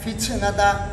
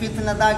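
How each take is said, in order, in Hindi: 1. t को ch जैसी साँस भरी हिस के साथ छोड़ा जाता है। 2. t एक साफ़, पूरी तरह रुकी हुई ध्वनि है।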